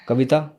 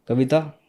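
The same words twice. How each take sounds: The two takes are said the same way.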